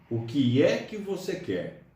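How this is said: The word 'é' carries strong emphasis. This is how it sounds when spoken aloud. "a gente coloca uma ênfase muito grande no é quando a gente fala isso"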